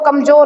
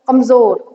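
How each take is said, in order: First: The middle consonant is a plain j sound. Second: The middle consonant is a buzzing z sound. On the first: The speaker calls it wrong. "Normal भाषा में कहते हैं बहुत कमजोर हो गया, ये कमजोर नहीं होता" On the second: The speaker calls it right. "ज में नुक्ता लगेगा"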